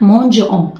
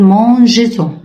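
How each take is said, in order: First: The words are said with a gap, no linking sound. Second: The words are joined by a linking z sound. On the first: The speaker calls it wrong. "حاسة إن في فجوة في النص، فجوة هوا" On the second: The speaker calls it right. "هنرجع الأس... عشان اعمل بالانس، توازن في النطق"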